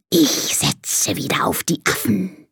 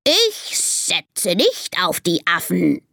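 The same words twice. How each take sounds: First: Slow, sibilant snake voice; hissing snake. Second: Slow, put-on parrot mimicry; babbling parrot. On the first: Acted. Snake betting after the monkey show, slow hiss. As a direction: hiss it slowly, stretching the sounds. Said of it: "zischt die Schlange". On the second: Parrot aping the snake to annoy it, slow squawky mimicry. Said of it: "plappert der Papagei".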